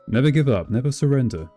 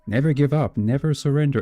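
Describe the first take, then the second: First: It is read in the speaker's normal voice. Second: It is read in an imitated viewer's voice.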